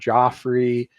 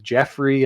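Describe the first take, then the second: First: The first vowel sounds like 'joff'. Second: The first vowel sounds like 'jeff'. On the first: The speaker calls it right. "instead of Joffrey" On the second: The speaker calls it wrong. "he's saying Jeffrey instead of Joffrey"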